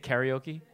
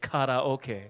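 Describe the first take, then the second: First: The word has an anglicized pronunciation. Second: The word has a Japanese-style pronunciation. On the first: The speaker calls it wrong. "You guys say karaoke? So you're not saying it right" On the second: The speaker calls it right. "in Japan, it's karaoke"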